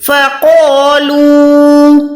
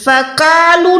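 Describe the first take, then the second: First: فَقَالُوا with thick ق, full alif and long و; فَقَالُوا drawn out, heavy alif; heavy qaf. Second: فَقَالُوا with thin ق and short ا; فَقَالُوا flat, no heavy alif; wrong take. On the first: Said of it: "قوف موٹا، الف موٹا". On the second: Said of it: "فَقَالُوا نہیں ہے". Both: Shown as a demonstration.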